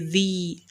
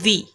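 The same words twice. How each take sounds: First: The vowel is drawn out long. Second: The vowel is short and clipped. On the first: The speaker calls it right. "because of the mud there, that is why we say the" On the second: The speaker calls it wrong. "We would have said the"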